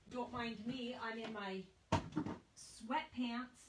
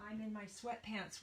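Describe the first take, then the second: First: Slow drawn-out aside. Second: Said in the usual way. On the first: Real, not acted. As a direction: stretch out every word slowly. Joking aside about her outfit.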